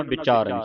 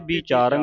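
First: ਵਿਚਾਰਨ with a short "bi" at the start; light, short i before the long "chaa" in ਵਿਚਾਰਨ; short sihari sounded. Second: ਵਿਚਾਰਨ with a stronger "bee" at the start; quick ਵਿਚਾਰਨ, tense i in the first syllable; wrong first vowel. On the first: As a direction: say ਵਿਚਾਰਨ as "bi-chaaran", falling at the end. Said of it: "ਸਿਹਾਰੀ ਦੀ ਆਵਾਜ਼". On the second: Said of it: "ਇੱਥੇ ਵਿਚਾਰਨ ਨਹੀਂ ਪੜ੍ਹਨਾ". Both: Shown as a demonstration.

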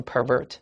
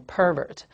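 First: Pervert stressed on the second syllable; verb stress on pervert. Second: Pervert stressed on the first syllable; pervert, front-stressed, second syllable weaker; noun stress on pervert. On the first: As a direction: say pervert as a verb, per-VERT. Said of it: "动词才读成". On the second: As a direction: say pervert as a noun, PER-vert. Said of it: "名词读成". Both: Shown as a demonstration.

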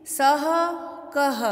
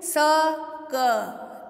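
First: सह कह each ends in a breathy h echo, sah-a kah-a; correct visarga. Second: स क said as bare sa and ka, with no breathy ह after either; wrong reading, visarga dropped. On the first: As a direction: sound the visarga clearly on सह and कह. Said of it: "तो हम सही उच्चारण सीखेंगे". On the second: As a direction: say स क flat, no final h sound. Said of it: "तो ये अशुद्ध उच्चारण माना जाएगा". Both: Shown as a demonstration.

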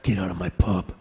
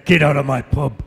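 First: Low tough-guy voice; Wolverine. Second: Lightly put-on tough landlord order; tough character voice. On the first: Acted. Actor retrying a soap catchphrase, low hero voice. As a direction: drop it right down, menacing and controlled. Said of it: "Now I sound like Wolverine". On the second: Actor trying a soap landlady's line in game-hero voice, forceful. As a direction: try the catchphrase with some force. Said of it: "I have to put the".

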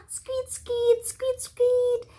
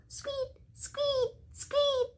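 First: High squeaky squeaks, lightly voiced; high playful squeaks for children; rabbit squeak. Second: High, much softer tiny squeaks; hushed high bunny squeaks for children; rabbit squeak. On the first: Teacher imitates rabbit. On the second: Teacher imitates rabbit softly. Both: Shown as a demonstration.

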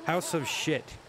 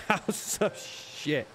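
First: Said in the usual way. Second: Breathy, slow, laughing through House of Shit; can barely get the words out for laughing. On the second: Real, not acted. Repeats the joke title to viewers, laughing.

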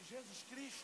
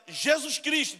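First: Barely audible, high, questioning murmur; timid, hushed call. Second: High, audible name call; barista calling out. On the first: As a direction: read the name out almost under your breath. Barista timidly reads name on cup. (chamando bem baixinho, sem coragem) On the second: Barista calls the name out again. (atendente chamando o nome, voz aguda) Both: Retold or imitated.

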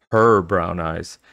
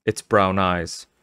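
First: Slow line, "her" drawn out and louder; stress on HER. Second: Said in the usual way. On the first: A narrator's reading. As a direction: lean long and hard on "her". Her eyes contrasted with its.

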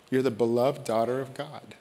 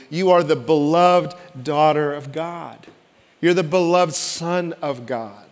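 First: Soft blessing. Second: Preached proclamation. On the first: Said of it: "when words are spoken over you". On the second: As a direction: proclaim it to the whole room. Proclaimed to congregation. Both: Acted.

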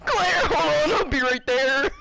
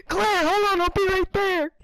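First: Hero's line with a sob; crying heroic call. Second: Loud heroic call; Leon voice line. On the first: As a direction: shout it near tears. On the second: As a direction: call out like a game hero. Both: Acted. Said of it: "Leon's lines".

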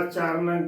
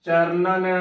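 First: ਚਰਨ with only one n; demonstrated mistake, ਚਰਨ without the last nan; wrong, syllable dropped. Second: ਚਰਨਨ with both n syllables sounded; careful ਚਰਨਨ, final nan pronounced; correct double n. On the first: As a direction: cut it short to ਚਰਨ. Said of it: "ਇਕੱਲਾ ਚਰਨ ਗਲਤ ਉਚਾਰਨ". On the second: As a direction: say ਚਰਨਨ as charnan. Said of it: "ਸ਼ੁੱਧ ਉਚਾਰਨ ਹੈ". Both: Shown as a demonstration.

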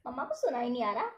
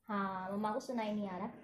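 First: Said in the usual way. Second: Conspiratorial low hush about mama in the kitchen; secretive hush. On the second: Real, not acted. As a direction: lower and softer, like sharing a secret. Mama in kitchen can't hear.

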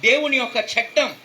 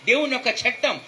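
The two takes are said the same way.

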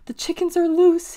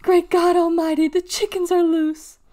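First: High, louder alarmed squeak. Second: High, loud panicked squeal. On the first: Clayton warning of escaped chickens, squeaked. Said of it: "he squeaked". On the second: Clayton running in circles over escaped chickens, squealing. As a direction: squeal it out at full alarm. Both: A narrator's reading.

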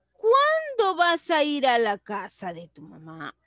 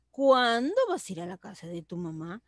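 First: "Cuándo" projected and stretched, falling through "mamá"; exclamatory tune. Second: "Cuándo" lifted, then asked lightly to "mamá"; questioning tune. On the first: Teacher reading the example for pupils, exclamatory tune. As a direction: exclaim from a strong "Cuándo" downward. Same example read two contrasting ways. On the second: Teacher showing pupils it is a question, questioning tune. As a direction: ask it more gently, leaning on "Cuándo". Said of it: "También es una pregunta". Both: Shown as a demonstration.

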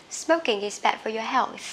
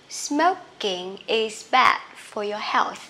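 First: Said in the usual way. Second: Careful, stretched-out teaching pace; slow model reading. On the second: Shown as a demonstration. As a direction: spell out the rhythm word by word. Slow then normal model sentence. (đọc mẫu chậm rãi từng cụm từ)

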